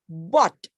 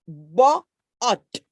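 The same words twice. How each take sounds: First: Said in the usual way. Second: "ba-at" broken into two beats with a gap; split into syllables. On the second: Shown as a demonstration. Teacher showing the parts of a word, "ba-at" split in two. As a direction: say "ba-at" in two separated, louder pieces. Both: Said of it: "there are two syllables".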